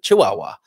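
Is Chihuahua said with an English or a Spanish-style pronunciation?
English. The word is said with an ordinary English pronunciation. "but Chihuahua"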